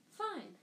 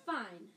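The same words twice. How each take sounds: First: Much higher, clipped-off fine; sharper fine. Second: Said in the usual way. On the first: A narrator's reading. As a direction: snap Fine up high. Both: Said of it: "she repeated".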